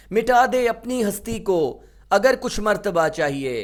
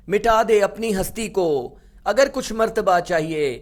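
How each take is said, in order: Both takes have the same delivery.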